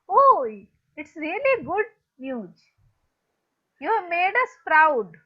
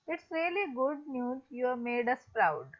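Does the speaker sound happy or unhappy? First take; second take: happy; unhappy. First: It is said in a happy, proud tone. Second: It is said in an unhappy, flat tone.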